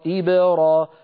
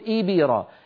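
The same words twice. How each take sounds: First: The b has no vowel, only a bounce. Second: The b leans toward an i vowel. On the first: The speaker calls it right. "القلقلة سكون" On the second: The speaker calls it wrong. "جعلنا الباء شبه مكسورة"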